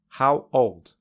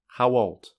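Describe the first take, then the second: First: The two words are said separately. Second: A w sound joins the two words.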